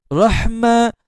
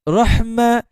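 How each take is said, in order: No difference in how they are said.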